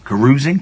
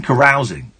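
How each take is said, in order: First: "Carousing" said as ca-ROOZ-ing, rising; questioned pronunciation. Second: "Carousing" said as ca-ROWZ-ing, falling; corrected pronunciation. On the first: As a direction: ask "Carousing" with an oo vowel. Tries out a doubtful pronunciation. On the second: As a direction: settle on "Carousing" with an ow vowel. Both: Shown as a demonstration.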